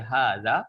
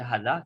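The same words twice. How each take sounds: First: The first vowel is long. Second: The first vowel is short. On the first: The speaker calls it right. "kita kena baca hadza" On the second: The speaker calls it wrong. "tak boleh baca hadza"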